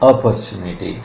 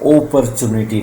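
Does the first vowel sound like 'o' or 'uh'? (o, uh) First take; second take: uh; o. First: The first vowel is an unrounded uh sound. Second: The first vowel is a rounded o sound. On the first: The speaker calls it right. "This is opportunity" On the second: The speaker calls it wrong. "opportunity नहीं है"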